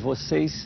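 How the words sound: The final s is a soft hissing sound. This is how it is said in the rural interior. "de uma forma muito mais suave"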